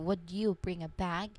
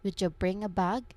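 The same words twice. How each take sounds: First: Slow, with a clear d and separate y. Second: Natural speed, with d and y merged together. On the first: "if you pronounce this full sentence very slowly and clearly" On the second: "when people speak this phrase naturally in real conversations, it changes its sound"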